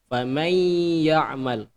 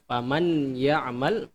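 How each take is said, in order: First: The n merges into a nasalized y sound. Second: The n sound is pronounced clearly before y. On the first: The speaker calls it right. "nun matinya itu dia masuk ke huruf ya. Jadi tidak terdengar" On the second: The speaker calls it wrong. "bukan faman ya'mal"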